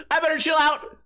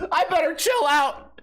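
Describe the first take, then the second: First: High hammed-up panic, stress on I; mock panic. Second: High hammed-up panicked cry; mock panic. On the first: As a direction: fake panic again, pushing I. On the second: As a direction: fake being scared stiff.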